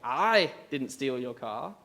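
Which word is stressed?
I. The stress is on the word I.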